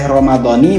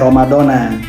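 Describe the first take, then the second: First: The word ends with an 'i' vowel. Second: The word ends with an 'a' vowel. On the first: "bacanya boleh Ramadhani" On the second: "boleh Ramadona"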